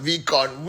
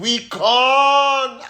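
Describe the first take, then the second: First: Said in the usual way. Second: Excited shout. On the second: Real, not acted. Hyping upcoming VCon event.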